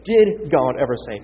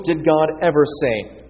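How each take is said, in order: First: "Did" set apart and punched, falling; stress on DID. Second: Said in the usual way. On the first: Real, not acted. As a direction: lean hard on "Did" to point out the tense. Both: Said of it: "Past tense".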